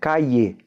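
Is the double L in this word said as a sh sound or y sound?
y sound. The double L sounds like a y. This is how most of Latin America says it.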